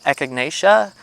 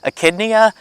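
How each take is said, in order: First: The name is said as echinacea. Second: The name is said as echidnia. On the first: The speaker calls it right. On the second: The speaker calls it wrong.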